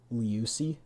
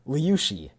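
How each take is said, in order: First: The middle consonant is a plain s sound. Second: The middle consonant is an sh sound. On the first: The speaker calls it wrong. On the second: The speaker calls it right.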